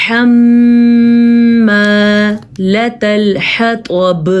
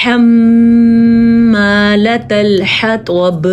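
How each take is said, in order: First: حَمَّالَةَ الْحَطَبِ slow, throaty ح from the throat, nasal hold on م; Quran recitation. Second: حَمَّالَةَ الْحَطَبِ slow, ح not as خ or ہ, طا heavy; Quran recitation. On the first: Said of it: "ہا کی آواز آنی چاہیے". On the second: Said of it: "اس کو پڑھیں گے". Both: Shown as a demonstration.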